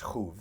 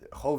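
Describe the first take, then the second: First: The vowel is an u sound. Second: The vowel is an o sound. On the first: It is the verb. "if you want to pronounce it as a verb, it's chuv" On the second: It is the noun. "chov is the noun"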